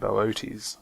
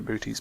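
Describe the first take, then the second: First: The name is not said like 'booties'. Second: The name is said like the word 'booties'. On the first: "that's apparently how you pronounce it" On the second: "I much prefer booties myself"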